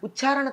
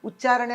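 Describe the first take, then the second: First: The 'ch' sound is aspirated. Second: The 'ch' sound is plain, not aspirated. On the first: The speaker calls it wrong. "తప్పు" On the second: The speaker calls it right. "అనాలి. అక్కడ ఒత్తు లేదు"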